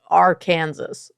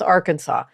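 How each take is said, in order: First: The word is sounded out letter by letter. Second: The word is said the usual spoken way. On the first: The speaker calls it wrong. "when you look at the word Arkansas, it looks like Arkansas" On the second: The speaker calls it right. "it's not that, it's Arkansas"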